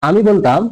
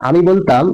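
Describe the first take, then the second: No difference in how they are said.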